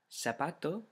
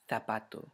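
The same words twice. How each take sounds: First: The first sound is an s sound. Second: The first sound is a th sound. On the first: This is the pronunciation used outside Spain. "Without, and then I'll pronounce it with ceseo" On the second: This is the pronunciation used in Spain. "with thetheo"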